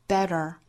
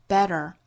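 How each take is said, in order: The two takes are said the same way.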